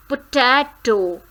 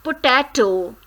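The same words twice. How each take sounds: The two takes are said the same way.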